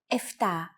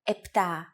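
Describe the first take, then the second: First: The first consonant is an f sound. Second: The first consonant is a p sound. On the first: This is the casual form. The speaker calls it wrong. "especially in casual conversation, Greeks also use" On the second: This is the standard form. The speaker calls it right. "The pronunciation we have used ... is the standard pronunciation"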